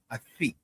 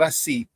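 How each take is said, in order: First: The s is lisped like th. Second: The s is a plain hissing sound. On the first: "They speak with a lisp" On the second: "not así"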